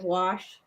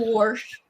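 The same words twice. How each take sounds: First: The word has no r sound before the sh. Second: The word has an r sound before the sh. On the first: This is how the speaker says it. "instead of wash" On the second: This is how relatives in Ohio say it. "they all say pop and wash"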